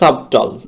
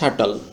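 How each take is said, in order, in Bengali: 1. এই শব্দে b উচ্চারিত হয়। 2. এই শব্দে b উচ্চারিত হয় না। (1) "স্বাভাবিকভাবে উচ্চারণ করলে এটা হচ্ছে যে সাবটল" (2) "সঠিক উচ্চারণ হচ্ছে শাটল"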